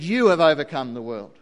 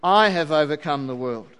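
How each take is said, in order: First: YOU gets the weight, falling through "have overcome the world"; stress on you. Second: I punched hard, then falls through "have overcome the world"; emphatic I. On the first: Preacher showing the wrong reading, stress on You. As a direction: lean on You, not on I. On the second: Preacher quoting Jesus's Greek, emphatic stress on I. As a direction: hit the I like a claim. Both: Shown as a demonstration. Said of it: "In the Greek, it's emphatic".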